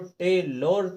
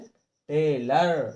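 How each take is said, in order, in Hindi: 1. अंतिम अक्षर में पूरा 'o' स्वर है। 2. अंतिम अक्षर में छोटा 'a' स्वर है। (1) "टेलोर तो नहीं पढ़ा है" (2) "ओ को आ की मात्रा लगाकर पढ़ते हैं"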